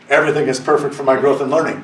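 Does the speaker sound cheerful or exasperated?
exasperated. It is said in a grudging, exasperated tone. Life is going badly. "when things are not going well"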